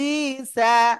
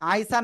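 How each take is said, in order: First: The first vowel is a plain 'ee' sound. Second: The first vowel is a gliding 'ai' sound. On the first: The speaker calls it right. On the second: The speaker calls it wrong. "অনেকে বলতেছেন আইসা। আইসা না"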